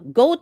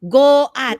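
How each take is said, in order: First: It is said as one syllable. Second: It is split into two syllables. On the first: The speaker calls it right. "goat also because" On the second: The speaker calls it wrong. "you don't say go at"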